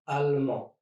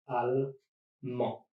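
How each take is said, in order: First: Said in the usual way. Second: Allemand slowly, in two separate syllables; long pause between the syllables of allemand; split into syllables. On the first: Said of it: "Here are a few other examples". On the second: Shown as a demonstration. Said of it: "try to divide words in syllables".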